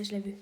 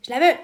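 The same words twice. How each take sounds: First: Said in the usual way. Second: "Je la veux" shouted out, much louder; eager shout of wanting it; loud cry. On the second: Real, not acted. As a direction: burst out with longing. Wants the item.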